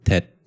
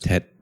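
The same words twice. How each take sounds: First: The S drops, leaving only a final T. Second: The same.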